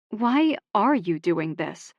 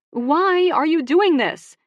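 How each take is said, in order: First: Said in the usual way. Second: Much higher, louder and slow, demanding; exasperated outburst. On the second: Acted. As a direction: throw the question at him in frustration. Sister exasperated, throws out hands.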